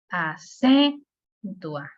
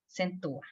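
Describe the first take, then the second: First: The stress is on the second syllable. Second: The stress is on the first syllable. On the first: "No se lo pudiera dar a, por ejemplo, la C" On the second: "no le puedo dar la, la fuerza a la A porque se oye exagerado"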